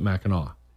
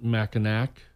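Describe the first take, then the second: First: The last syllable ends in an open 'aw' sound. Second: The last syllable ends with a clear 'k' sound. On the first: "they pronounce it Mackinac" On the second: "A lot of people call it Mackinac"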